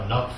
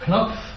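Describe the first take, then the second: First: The name is pronounced the English way. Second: The name is pronounced the non-English way.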